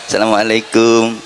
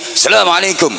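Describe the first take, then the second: First: It is said in a lower, softer pitch. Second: It is said in a high, raised pitch. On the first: A student humbly greets a teacher while bowing. "itu kalau salam sambil membungkukkan badan" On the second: "dengan nada tinggi"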